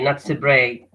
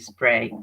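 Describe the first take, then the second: First: A vowel sound is inserted between S and P. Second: S and P are joined with no vowel between. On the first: The speaker calls it wrong. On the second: The speaker calls it right. "There is no vowel between S and P"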